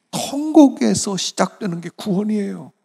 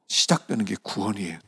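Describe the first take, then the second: First: 통곡에서 hit high and loud, the rest falling; 통곡에서 thrown up high and loud, 시작되는 게 구원이에요 falling away; stress on 통곡에서. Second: Said in the usual way. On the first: Shown as a demonstration. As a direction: lean hard on 통곡에서, then let 구원이에요 drop.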